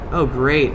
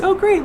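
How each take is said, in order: First: It is said in a sarcastic tone. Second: It is said in a sincere tone. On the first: The speaker is not really looking forward to it. The speaker calls it wrong. "That sounded a little sarcastic" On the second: The speaker is genuinely looking forward to it. The speaker calls it right. "I'm sure it was just"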